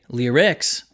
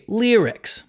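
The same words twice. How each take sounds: First: The stress falls on the unexpected syllable. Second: The stress falls on the expected syllable. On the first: The speaker calls it wrong. "We don't say lyrics" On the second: The speaker calls it right. "we say lyrics"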